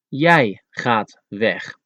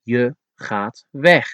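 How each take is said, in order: First: "Jij" slowed and leaned on, falling; stress on jij. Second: Said in the usual way. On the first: Shown as a demonstration. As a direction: hit "Jij" harder than the rest. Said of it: "when there's a special emphasis on that word, you have to use jij". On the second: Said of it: "it could be translated as".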